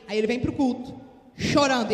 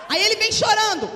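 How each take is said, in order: First: Said in the usual way. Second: Belts it out, much higher and louder; preaching shout. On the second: Acted. Preacher shouting the line to the congregation. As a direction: shout it over the whole church.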